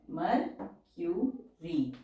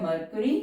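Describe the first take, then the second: First: मर्क्यूरी stretched very slowly; slow dictation. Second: Said in the usual way. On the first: Shown as a demonstration. (मर्क्यूरी को बहुत धीरे बोलना) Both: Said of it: "word है मर्क्यूरी".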